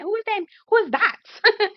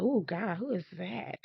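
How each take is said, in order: First: High, stretched-out squeal; thrilled, high-pitched swooning; excited admiration. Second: Quietly smitten aside; hushed admiration. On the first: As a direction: blurt it high, dragging out the last one. Replays excitement over handsome man. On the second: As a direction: murmur it on noticing someone handsome. Reacts to a handsome man. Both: Retold or imitated.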